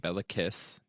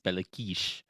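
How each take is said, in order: First: The name is said as spelled in English. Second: The name is said with Hungarian pronunciation. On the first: "it's more funny in English to say Belakis because that's the literal spelling" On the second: "But technically in Hungarian, it's Belakish"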